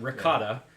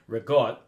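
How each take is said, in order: First: It is said with a general American accent. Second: It is said with an Italian American accent. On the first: "There's the American way" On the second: "there's the Italian American way"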